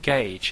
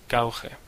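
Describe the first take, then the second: First: It is said with standard English sounds. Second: It is said with Spanish-style sounds. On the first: "words like gauge" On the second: "usually pronounced as"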